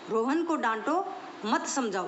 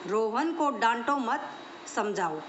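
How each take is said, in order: First: The pause comes after the word 'dānṭo'. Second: The pause comes after the word 'mat'. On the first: Scold him; do not explain to him. "इसको समझाना नहीं, इसको सिर्फ डांटना है।" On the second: Do not scold him; explain to him. "कि रोहन को डांटो मत, इसको समझाओ।"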